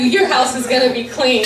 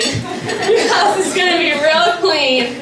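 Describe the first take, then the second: First: Said in the usual way. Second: Drawn-out, slower "real clean"; slow down and lean on REAL; emphatic repeat. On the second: Real, not acted. Friend promising Travis a spotless house, slow emphatic "real clean".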